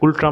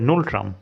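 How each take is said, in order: First: The word begins with a plain g sound. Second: The word begins with an ng sound. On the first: The speaker calls it wrong. "এটা গুলট্রাম নয়" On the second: The speaker calls it right. "এটা হবে নুলট্রাম"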